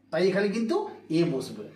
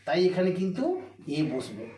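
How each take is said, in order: Both takes have the same delivery.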